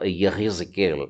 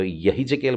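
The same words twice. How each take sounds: First: यही जकेल with the h scraped from the back of the throat, almost kh; guttural kh sound. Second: यही जकेल said with an ordinary breathy h, no throat sound; plain ha. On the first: Hebrew teacher showing students the right throaty h in यही जकेल. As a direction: say यही जकेल slowly, h rasped like a light kh. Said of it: "इस प्रकार से आप उसका उच्चारण करें". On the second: Teacher showing the wrong way to say यही जकेल, with a plain h. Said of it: "यही जकेल बोलने की बजाय". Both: Shown as a demonstration.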